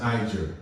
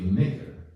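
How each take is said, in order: First: The word has its English pronunciation. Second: The word has its Greek pronunciation. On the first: "you would pronounce it in English as Niger" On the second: "the Greek is really"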